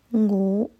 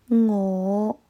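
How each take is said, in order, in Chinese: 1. 这个元音很弱，嘴巴几乎没有张开。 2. 这个元音饱满，嘴巴张得很大。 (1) "我在歌词里面听到的是我" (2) "正确的是我"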